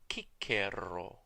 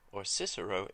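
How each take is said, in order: First: The name is said the classical Latin way. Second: The name is said the English way. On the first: "Cicero would have pronounced his own name" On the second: "in English"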